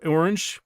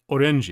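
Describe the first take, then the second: First: Said in the usual way. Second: "orange" said as Japanese o-ren-ji; "orange" in three syllables, ending in -ji; Japanese pronunciation. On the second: Shown as a demonstration. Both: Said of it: "orange was orange".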